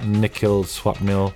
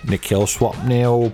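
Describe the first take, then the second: First: It is said in his natural voice. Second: It is said in a put-on voice.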